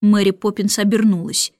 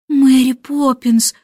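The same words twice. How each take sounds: First: Said in the usual way. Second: Slow, drawn-out pleading plea; pleading call. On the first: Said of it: "умоляюще". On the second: A narrator's reading. Michael pleading with Mary Poppins, slow and imploring. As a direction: beg her forgiveness. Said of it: "умоляюще проговорил Майкл".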